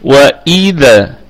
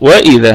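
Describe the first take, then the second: First: The glottal stop is pressed and clearly heard. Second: The glottal stop is blurred into the w. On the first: The speaker calls it right. "وإي نتك على الهمزة شوية ونظهرها" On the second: The speaker calls it wrong. "هذه خطأ، خطأ كبير أن أقول وإذا من الواو"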